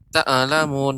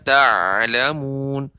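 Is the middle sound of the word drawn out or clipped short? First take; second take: clipped short; drawn out. First: The middle throat sound is clipped short and quick. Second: The middle throat sound is drawn out longer. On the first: The speaker calls it wrong. "Adapun terlalu cepat" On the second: The speaker calls it right. "seharusnya dia lebih memanjang"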